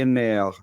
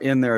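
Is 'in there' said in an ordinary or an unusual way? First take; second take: unusual; ordinary. First: It is said in an unusual, imitated way. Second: It is said in an ordinary way. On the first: This is how the child used to say it. "it'd be in there" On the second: This is the normal way to say it. "or in there"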